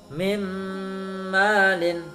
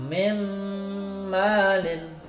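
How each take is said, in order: Both takes have the same delivery.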